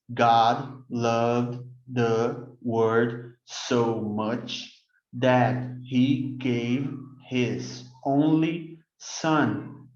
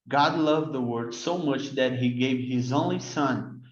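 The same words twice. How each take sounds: First: It is read slowly, word by word. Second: It is read at a normal speed.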